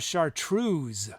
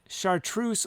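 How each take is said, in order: First: The word ends with a Z sound. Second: The word ends with an S sound.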